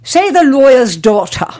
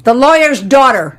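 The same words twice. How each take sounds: First: "lawyer's daughter" in affected, r-less British vowels; teacher's elocution. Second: "lawyer's daughter" with broad Chicago vowels and hard r's; American vowels. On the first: Teacher drilling student on "lawyer's daughter", affected British vowels. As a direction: imitate the teacher enunciating "lawyer's daughter" grandly. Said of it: "And she would say". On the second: Student repeating "lawyer's daughter" for teacher, broad American. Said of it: "They can't hear that". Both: Retold or imitated.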